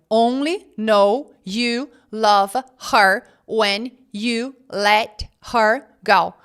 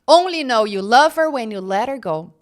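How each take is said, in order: First: Each word is said separately and fully. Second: The words run together in connected speech.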